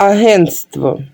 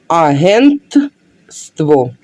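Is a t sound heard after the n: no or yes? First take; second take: no; yes. First: The word is said without a t after n. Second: The word is said with a t after n. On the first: The speaker calls it wrong. "Так неправильно казати" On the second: The speaker calls it right. "правильно буде через літеру Т"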